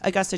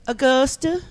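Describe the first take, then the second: First: It is said in a plain, neutral accent. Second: It is said with a drawn-out Southern accent.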